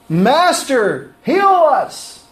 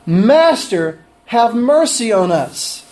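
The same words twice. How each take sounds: First: High, pleading cry of Master, heal us; wrong plea. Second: Right plea. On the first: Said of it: "That's not what they said". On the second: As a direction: plead for mercy slowly and sincerely. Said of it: "But they really cried correctly". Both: Shown as a demonstration.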